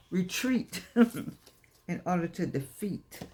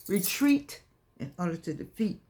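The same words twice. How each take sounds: First: Drawn-out slogan with a laugh; slow proclamation with a chuckle. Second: Said in the usual way. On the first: Acted. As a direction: lean on each word, slow. Slogan delivered slowly, laughing.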